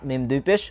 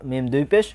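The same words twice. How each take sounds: The two takes are said the same way.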